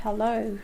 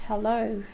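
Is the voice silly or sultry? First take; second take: sultry; sultry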